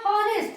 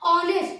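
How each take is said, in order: First: The word begins with an audible h sound. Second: The word begins with a vowel, no h. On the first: The speaker calls it wrong. "यहाँ लिखा है हॉनेस्ट" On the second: The speaker calls it right. "एच क्या होता है, silent होता है"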